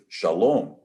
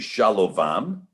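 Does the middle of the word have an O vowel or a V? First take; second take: O vowel; V. First: The middle is sounded as an O vowel. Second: The middle is sounded with a V consonant. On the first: The speaker calls it right. "everywhere that you would find the Vav in the middle of the word, it would either be pronounced U or O" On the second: The speaker calls it wrong. "So you don't say Shalovam"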